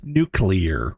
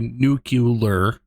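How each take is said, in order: First: It is said nu-clee-ar, like nucleus. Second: It is said nu-cu-lar, with an extra syllable. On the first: "as in nucleus" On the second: "a way that a large proportion of uh, like native English speaking people say that word"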